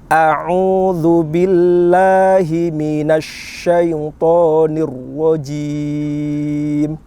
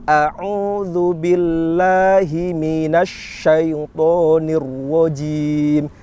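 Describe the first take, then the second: No difference in how they are said.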